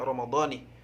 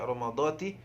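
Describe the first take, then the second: First: The word ends with the syllable ni. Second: The word ends with the syllable ti. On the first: The speaker calls it right. "jadi harus dibaca Ramadhani" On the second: The speaker calls it wrong. "jangan dibaca Ramadhati"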